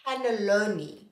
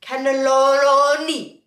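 First: Said in the usual way. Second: "Cannelloni" drawn right out, loud and sustained; sing-song, very slow "Cannelloni"; showy pronunciation demo. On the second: Shown as a demonstration. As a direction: stretch the "lo" in "Cannelloni" long and loud, then drop. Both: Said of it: "that's how to pronounce the other one".

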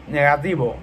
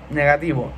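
Both takes have the same delivery.

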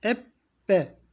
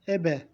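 First: Ebbe slowly, the b held double; ebbe, slow, doubled b; doubled b with şedde. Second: Ebe with one short b, no doubling; Ebe, e-be, single b; single b, no şedde. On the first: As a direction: stretch the b in ebbe, eb-be. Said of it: "Ama şedde olduğundan ebbe". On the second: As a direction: say Ebe quick, the b once only. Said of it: "Eğer şedde olmasaydı nasıl okuyacaktık". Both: Shown as a demonstration.

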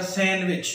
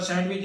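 First: सैंडविच with a silent d, san-wich; correct pronunciation. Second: सैंडविच with the d sounded, sand-wich; wrong pronunciation. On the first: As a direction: say सैंडविच dropping the d entirely. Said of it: "दुरुस्त जो pronunciation है". (सैंडविच में ड खामोश, सही उच्चारण) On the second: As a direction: say सैंडविच as spelled, d pronounced. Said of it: "ये गलत प्रोनंसिएशन है". (सैंडविच में ड बोलकर गलत उच्चारण) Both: Shown as a demonstration.

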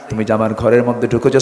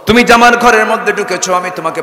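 First: Said in the usual way. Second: Louder, higher accusation; raised accusing voice. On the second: Acted. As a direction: throw the charge at him. Woman lists Umar's faults loudly.

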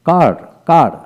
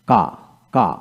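First: কার said with a clear final r, a bit louder; American pronunciation. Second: কা said with no r sound, open ending; British pronunciation. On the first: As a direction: sound the r at the end of কার. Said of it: "আমেরিকানে". (American উচ্চারণে স্পষ্ট র সহ কার) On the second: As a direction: drop the r in কা, British style. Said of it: "British". (British উচ্চারণে র ছাড়া কা) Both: Shown as a demonstration.

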